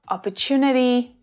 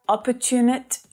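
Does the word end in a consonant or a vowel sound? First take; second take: vowel; consonant. First: The word ends with a soft vowel sound. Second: The word ends on a consonant, vowel dropped. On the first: The speaker calls it right. "we definitely want to hear that vowel sound on the end" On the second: The speaker calls it wrong. "Not ... opportunit"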